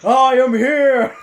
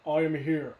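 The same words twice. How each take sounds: First: It is shouted with loud, heroic energy. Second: It is said flat and expressionless.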